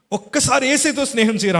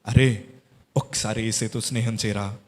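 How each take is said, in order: First: Emphatic preached repeat. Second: Gentle motherly plea. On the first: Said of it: "అన్నారు". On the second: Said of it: "అని అన్నారు". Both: Retold or imitated.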